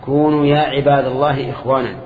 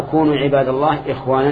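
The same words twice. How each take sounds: First: "عباد الله" as a direct address after "يا", ending in a fall; vocative reading. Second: "كونوا عباد الله" run together as one command, rising at the end; predicate reading. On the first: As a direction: call on "يا عباد الله" as those addressed, then let "إخوانا" fall. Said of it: "أو منادى". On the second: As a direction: join "عباد الله" to "كونوا", lift the tune on "إخوانا". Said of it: "يعني كونوا عبادا لله". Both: Shown as a demonstration.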